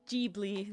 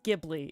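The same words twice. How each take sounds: First: The word begins with a J sound. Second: The word begins with a hard G sound. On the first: This is how it is said in Japanese. "There you go, in Japanese with a J" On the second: This is how an American reads it. "when you read the word in American, it, it's Ghibli"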